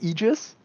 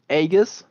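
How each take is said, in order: First: It is said with an anglicized English pronunciation. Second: It is said with a Greek-style pronunciation. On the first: "if you English English English fire it, it would be" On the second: "usually it would be pronounced, I believe"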